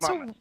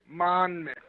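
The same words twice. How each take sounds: First: The middle N is only lightly grazed. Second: The middle N is pronounced hard and strong. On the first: The speaker calls it right. "No, it's" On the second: The speaker calls it wrong. "some people say with the hard N, like"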